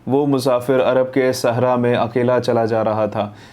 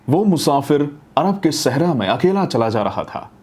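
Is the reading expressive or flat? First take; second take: flat; expressive. First: It is read flatly, without emotion or modulation. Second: It is read expressively, with emotion and modulation. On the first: It sounds like speech software reading. The speaker calls it wrong. "सिर्फ इसको पढ़ा है और वो भी बिना किसी emotion या मोटिवेशन के" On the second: It has a human touch. The speaker calls it right. "मैं ट्राई करता हूँ अगर जितना भी जस्टिस दे पाऊँ"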